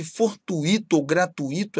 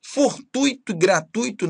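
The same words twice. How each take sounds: First: "fortuito" and "gratuito" said tu-Í-to; hiatus mispronunciation. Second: "Fortuito" and "gratuito" with stressed TÚI; diphthong pronunciation. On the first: Teacher showing forbidden forms, "fortuito", "gratuito" stressed on Í. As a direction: split UI and hit the I in "fortuito", "gratuito". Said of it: "Essa pronúncia não é permitida". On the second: Teacher giving correct forms, "Fortuito", "gratuito" stressed on TÚI. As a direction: keep UI one syllable in "Fortuito", "gratuito". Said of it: "nada de fortuito ou gratuito". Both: Shown as a demonstration.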